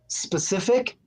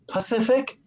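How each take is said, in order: First: The word begins with an 'spe' sound. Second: The word begins with a 'pa' sound. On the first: The speaker calls it right. "instead of saying specific" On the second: The speaker calls it wrong. "he says Pacific"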